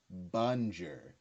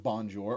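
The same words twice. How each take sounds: First: "Bonjour" said badly as "bun-jer", flat English vowels; "Bonjour" mangled, no French nasal, ending "-jer"; wrong pronunciation. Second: "bonjour" with a nasal "bon" and a full "jour"; "bonjour" said the proper French way; correct French. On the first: Creator demos Neptune's fake French, "Bonjour" said as "bun-jer". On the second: Creator contrasts the correct French "bonjour" with a nasal "bon". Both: Shown as a demonstration. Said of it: "like, instead of".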